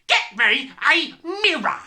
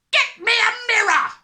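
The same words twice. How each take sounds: First: Loud yell, word by word; emphatic yelling. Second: Very high, frantic full yell. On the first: Father repeats his demand, yelling emphatically. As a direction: punch out each word of the order. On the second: Father desperate to see his hair, yelling. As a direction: scream the order in one burst. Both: A narrator's reading. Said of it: "the father yelled".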